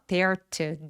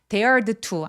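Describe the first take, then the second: First: The final d of dared is dropped entirely. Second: The final d of dared is clearly pronounced. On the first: The speaker calls it right. "한 번만 발음하기 때문에 ... 동사 원형처럼" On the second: The speaker calls it wrong. "dared to 아니에요"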